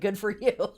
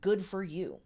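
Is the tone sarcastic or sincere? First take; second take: sincere; sarcastic. First: It is said in a sincere tone. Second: It is said in a sarcastic tone. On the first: The praise is genuine. The speaker calls it right. "I mean literally" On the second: The praise seems mocking. The speaker calls it wrong. "it sounded really sarcastic when I just said it"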